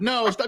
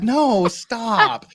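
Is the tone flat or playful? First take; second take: flat; playful. First: It is said in a flat, serious tone. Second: It is said in a playful, teasing tone. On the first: She is read as truly objecting. "they're reading the transcript" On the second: She is flirting and does not really object. "she's like"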